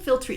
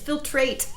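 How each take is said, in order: First: The last syllable sounds like 'treet'. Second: The last syllable sounds like 'trate'. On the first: The speaker calls it wrong. "I keep saying filtrete" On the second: The speaker calls it right. "it's filtrate"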